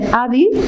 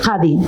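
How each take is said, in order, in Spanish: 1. La primera consonante es una oclusiva glotal. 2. La primera consonante no es una oclusiva glotal. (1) "la realización glotal de la C A F ... eso es como de pueblo" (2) "la forma más estándar o más de, de Rabat"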